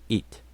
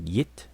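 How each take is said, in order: First: The word starts directly with a vowel. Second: The word starts with a y glide. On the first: "some people pronounce it it" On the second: "some people pronounce it yit"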